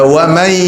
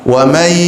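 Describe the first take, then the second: No difference in how they are said.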